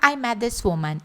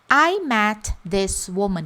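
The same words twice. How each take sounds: First: The words run together quickly, one partly swallowed. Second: Each of the four words is said separately. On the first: "Parece que ele está comendo aí uma palavra" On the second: "com esses quatro momentos"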